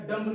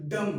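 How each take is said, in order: First: डम्ब loud, with a released b; B sounded in डम्ब. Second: डम ending on m; silent B in डम. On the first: Teacher revising, showing the misreading with b pronounced. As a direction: say डम्ब wrongly, punching the final b. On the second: Teacher revising, showing the right reading with b silent. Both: Shown as a demonstration. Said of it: "डम्ब नहीं".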